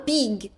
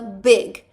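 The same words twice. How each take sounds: First: The vowel sounds like a long 'ee'. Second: The vowel sounds like a short 'eh'. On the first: The speaker calls it wrong. "Não fala big" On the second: The speaker calls it right. "fala big. É como se fosse nosso E normal em português"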